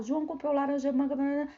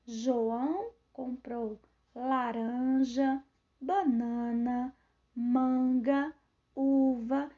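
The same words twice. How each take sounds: First: "João comprou laranja, manga, banana" rattled off in one breath; run together without pauses. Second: "João comprou laranja, banana, manga, uva" slow, pausing after each item; pauses at commas. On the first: Teacher showing how not to speak, unpaused list. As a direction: rush the list with no gaps. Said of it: "eu não falo". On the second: Teacher showing comma pauses, slow separated list. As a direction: stretch and separate each listed word. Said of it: "Eu vou dando uma pausa na fala". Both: Shown as a demonstration.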